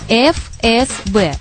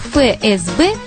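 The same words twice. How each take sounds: First: The first letter is pronounced as "ef". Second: The first letter is pronounced as "fe". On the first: The speaker calls it wrong. "надо произносить по названию букв ФСБ. Но так не говорят" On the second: The speaker calls it right. "произношение ФСБ считается нормативным"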